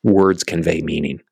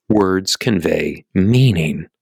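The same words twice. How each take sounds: First: Said in the usual way. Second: Slow, with weight on "meaning"; emphatic repeat. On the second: Shown as a demonstration. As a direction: spell it out slowly, stretching "meaning".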